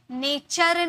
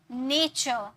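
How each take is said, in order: First: नेचर with the final r sounded, nay-CHARR; wrong pronunciation. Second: नेचर ending in an open "cho", r dropped; half-r pronunciation. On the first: Teacher shows what not to say, full final R. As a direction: say नेचर slowly with a full R ending. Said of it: "नेचर नहीं". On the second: Teacher models the correct word, softened final R. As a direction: say नेचर as NAY-chuh, R barely there. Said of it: "र को half में pronounce". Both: Shown as a demonstration.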